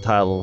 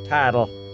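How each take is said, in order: First: The word is said in a plain accent. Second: The word is said in a Southern accent.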